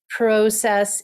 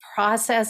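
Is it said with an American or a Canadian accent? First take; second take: Canadian; American. First: It is said with a Canadian accent. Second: It is said with an American accent.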